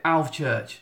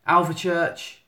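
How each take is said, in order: First: "Alvechurch" said in two syllables, ALV-church; two-syllable pronunciation. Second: "Alvechurch" said in three syllables, AL-vuh-church; three-syllable pronunciation. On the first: Vlogger showing the other local version, "Alvechurch" as ALV-church. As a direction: run the v straight into church in "Alvechurch". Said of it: "Some people call it Alvechurch". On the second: Vlogger showing how some people say it, "Alvechurch" as AL-vuh-church. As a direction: add a short uh after the v in "Alvechurch". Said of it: "half the people in the country call it".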